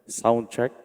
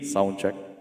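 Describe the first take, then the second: First: The voice has some added echo. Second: The voice has heavy, full echo. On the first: "Reverb na siya" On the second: "naka full volume"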